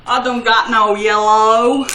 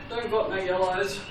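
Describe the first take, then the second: First: Loud, drawn-out mock Southern drawl; slow, loud fake Southern twang; bad Southern accent. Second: Said in the usual way. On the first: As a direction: ham up a Southern US accent, badly. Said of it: "that's supposed to be my southern accent".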